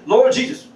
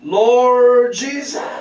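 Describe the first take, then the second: First: It is called out quickly and short. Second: It is called out long and drawn out.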